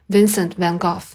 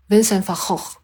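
First: The name is said with a British pronunciation. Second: The name is said with a Dutch pronunciation. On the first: "我用的是音音，就是Van Gogh" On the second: "然后其实荷兰的读音是"

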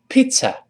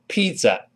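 First: The middle consonant is a voiceless ts sound. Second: The middle consonant is a voiced z sound. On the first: The speaker calls it right. "中间是发ts 那个ts……这个声音声带不震动" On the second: The speaker calls it wrong. "不要把它读成pizza，不是这么读的"

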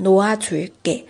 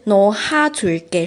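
First: The h sound is dropped between syllables. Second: An h sound is pronounced between syllables. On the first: The speaker calls it right. "读成no a zu ge" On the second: The speaker calls it wrong. "而不是no ha zu ge，是不对的啊"

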